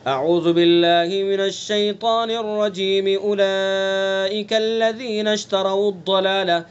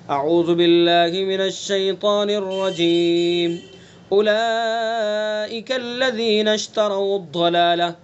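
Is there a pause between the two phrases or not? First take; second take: no pause; pause. First: The two phrases are joined without a pause. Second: There is a pause between the two phrases.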